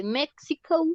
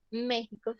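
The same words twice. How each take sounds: First: "México" said the English way, MEK-si-co; English pronunciation. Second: Said in the usual way. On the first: Shown as a demonstration. Teacher giving students the English country name, "México" in English pronunciation. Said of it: "se dice México". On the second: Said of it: "en inglés".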